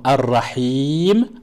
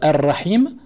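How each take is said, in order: First: The last vowel is held long. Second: The last vowel is kept short. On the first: "avec la prolongation" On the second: "sans prolongation"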